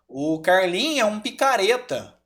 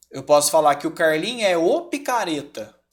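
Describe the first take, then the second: First: "um picareta" said plainly; stress on um. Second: "o picareta" with the article leaned on; stress on o. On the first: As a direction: keep "um" light and unstressed. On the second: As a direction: hit "o" before "picareta". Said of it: "mas ruim com força". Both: Shown as a demonstration.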